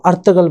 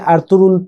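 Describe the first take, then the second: First: "ارتغل" with g sounded, last r dropped; last R silent. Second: "ارطغرل" as Arturul, no g sound; Turkish silent G. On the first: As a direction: say "ارتغل" as Artagal, skipping the second r. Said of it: "آخری والا آر جو ہے وہ پروننسیٹ نہیں ہوگا". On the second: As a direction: say "ارطغرل" Turkish-style, dropping the g. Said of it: "وہ جی کو silent کر کے". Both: Shown as a demonstration.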